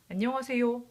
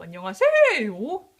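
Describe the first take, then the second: First: The syllable 세 carries no special stress. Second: The syllable 세 carries strong stress. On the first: The speaker calls it right. "이게 제일 일반적이죠" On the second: The speaker calls it wrong. "어떤 모국어 화자도 안녕하세요 이렇게 말하진 않아요. 세의 강세를 두진 않잖아요"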